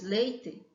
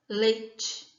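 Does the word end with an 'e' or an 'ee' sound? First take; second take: e; ee. First: The final vowel is pronounced like 'e'. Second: The final vowel is pronounced like 'ee'. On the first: "ao invés de falarmos" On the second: "com i no final"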